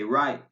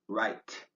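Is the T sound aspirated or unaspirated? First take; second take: unaspirated; aspirated. First: The T is released without a puff of air. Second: The T is released with a puff of air. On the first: The speaker calls it right. "It's pronounced but not aspirated" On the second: The speaker calls it wrong. "not right"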